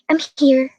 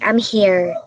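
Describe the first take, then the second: First: The whole phrase is said at high pitch. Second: The pitch rises toward the end of the phrase. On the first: "the tone of voice that is very high" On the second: "sa rising tone"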